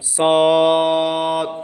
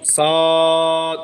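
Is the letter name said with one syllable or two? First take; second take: one; one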